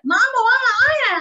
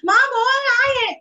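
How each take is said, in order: First: Put-on high, loud wailing child; crying child voice. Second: Put-on high, loud crying child voice; imitating child crying. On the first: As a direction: wail like a frustrated little kid. (रोते हुए बच्चे की ऊँची, तेज़ आवाज़) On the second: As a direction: cry it out like a frustrated child. (रोते बच्चे की नकल, ऊँची और तेज़ आवाज़ में)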